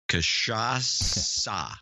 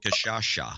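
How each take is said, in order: First: The last consonant is a plain s sound. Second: The last consonant is an sh sound. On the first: The speaker calls it right. "I'm going to get you to pronounce this correctly" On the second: The speaker calls it wrong. "It's not Kashasha"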